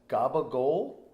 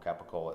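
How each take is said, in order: First: It is said with Italian-American dialect pronunciation. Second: It is said with standard American pronunciation.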